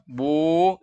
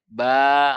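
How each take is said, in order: First: The syllable sounds thick and dark. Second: The syllable sounds thin and light. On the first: The speaker calls it wrong. "Itu tebal kalau dibaca bu" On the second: The speaker calls it right. "harus dibaca ba"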